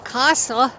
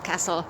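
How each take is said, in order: First: It is said in a southern English accent. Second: It is said in a Midlands accent.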